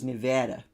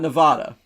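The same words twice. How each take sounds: First: It uses the locals' pronunciation of the name. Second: It uses the speaker's East Coast pronunciation. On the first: This is how the state's residents say it. The speaker calls it wrong. "they said that the name of their state was Nevada" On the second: This is how the speaker from New Jersey says it. The speaker calls it right. "I say Nevada because I'm human"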